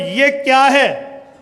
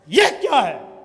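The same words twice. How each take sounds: First: It sounds like a plain, neutral question. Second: It sounds angry and scolding.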